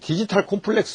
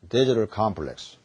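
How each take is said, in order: First: It is said with a Korean-style accent. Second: It is said with an English-like accent. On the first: The speaker calls it wrong. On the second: The speaker calls it right.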